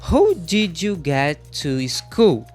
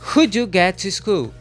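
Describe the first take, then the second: First: Each word is said fully and spaced apart. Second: The first words are contracted and run together. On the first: The speaker calls it wrong. "Sem o connective speech, a fala não fica contraída" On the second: The speaker calls it right. "com connective"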